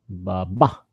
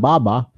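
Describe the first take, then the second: First: The stress is on the second syllable. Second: The stress is on the first syllable. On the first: The speaker calls it right. "the accent is on the second syllable, on the second ba" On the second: The speaker calls it wrong. "it's not baba"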